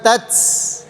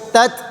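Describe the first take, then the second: First: The final t is released with an s-like hiss. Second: The final t is released with plain air. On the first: The speaker calls it wrong. "bukan huruf S, Jadi bukan tats" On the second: The speaker calls it right. "tapi tat"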